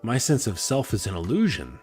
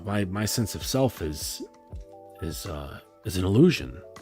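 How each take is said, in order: First: The tone sounds upbeat and relieved. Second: The tone sounds dismayed and heavy. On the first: The idea lifts a weight and frees you. "Or you flip it, and you're like, "Hey" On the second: The idea feels like bad news.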